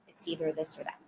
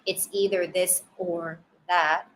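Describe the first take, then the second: First: The word 'or' is reduced to 'er'. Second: The word 'or' is said fully. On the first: "often the word or can be reduced" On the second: "Instead of"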